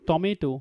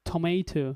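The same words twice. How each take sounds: First: The first sound has no strong puff of air. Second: The first sound has a strong puff of air. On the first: "যেখানে আমরা বলতাম" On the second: "ওইখানে stress দিলে কি হবে"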